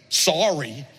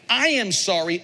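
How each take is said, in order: First: Dismissive, offhand sorry; cheap sorry. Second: Sincere, deliberate I am sorry; mean every word of it; owned apology. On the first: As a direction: toss it off without owning it. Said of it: "David just goes". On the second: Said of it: "owns it". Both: Shown as a demonstration.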